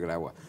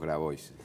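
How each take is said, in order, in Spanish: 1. Se pronuncia a la francesa. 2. Se pronuncia a la española. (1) "en francés debe ser Grabois" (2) "entonces digamos Grabois"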